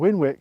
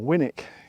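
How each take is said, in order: First: The second syllable starts with a w sound. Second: The second syllable has no w sound. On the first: This follows the name's origin. "sounds silly, but it probably is the right way of pronouncing it" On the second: This is the easier local form. "the locals probably call it Winnock or Winnick because it's easier to say"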